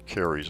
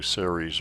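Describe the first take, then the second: First: The word begins with a hard K sound. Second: The word begins with a soft S sound.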